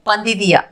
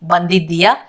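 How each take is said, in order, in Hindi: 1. शब्द बोलचाल में छोटे रूप में बोला गया है। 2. शब्द अपने पूरे लिखित रूप में बोला गया है। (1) "वो स्पोकन में हम बोलेंगे बंदिदिया" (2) "ये बंदिद्दिया पढ़ने लिखने क्वेश्चन में हो गया"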